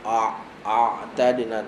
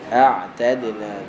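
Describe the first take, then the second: First: The ain sound is heavy and thick. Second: The ain sound is light and thin. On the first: The speaker calls it wrong. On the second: The speaker calls it right. "huruf ain adalah huruf nipis"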